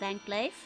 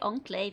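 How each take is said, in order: First: The word is said with the usual English pronunciation. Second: The word is said with a French-style pronunciation. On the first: The speaker calls it right. "That's how the normal word is pronounced" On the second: The speaker calls it wrong. "That's kind of a dumb pronunciation though. ... it's a French word"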